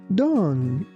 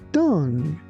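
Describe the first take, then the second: Both takes have the same delivery.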